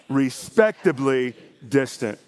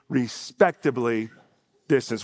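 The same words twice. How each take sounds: First: It is said loudly with strong energy. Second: It is said at a plain, calm level. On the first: "with a good, brave church oomph on it" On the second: "Say that with me"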